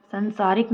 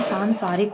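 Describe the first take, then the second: First: "संसारिक" starting short "san"; wrong short first vowel. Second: "सांसारिक" starting long "saan"; correct long first vowel. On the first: Teacher rejects the mistake, short "san" in "संसारिक". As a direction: keep सं clipped in "संसारिक". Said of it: "नहीं होता है". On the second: Teacher gives the correction, long "saan" in "सांसारिक". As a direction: stretch सां in "सांसारिक". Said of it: "होता है". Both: Shown as a demonstration.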